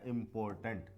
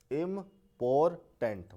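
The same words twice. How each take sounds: First: Said in the usual way. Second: इंपॉर्टेंट broken into three slow beats; syllable by syllable. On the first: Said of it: "हमें तीन बार जो है". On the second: Shown as a demonstration. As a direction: say इंपॉर्टेंट in three separate syllables, pausing between them. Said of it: "अपने rhythm को change करना". (इंपॉर्टेंट को तीन टुकड़ों में रुक-रुककर)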